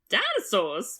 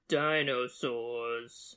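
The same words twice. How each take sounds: First: The word is said with lively, inflected pitch. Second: The word is said flat, without pitch movement. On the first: "say it how you normally do" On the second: "say the word dinosaurs without an inflection"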